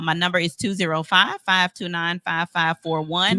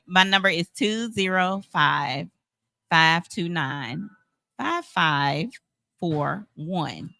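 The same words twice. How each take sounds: First: The number is said fast. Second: The number is said slowly.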